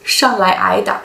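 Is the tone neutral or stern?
stern. It is said in a stern, commanding tone. "so come come and I will beat you"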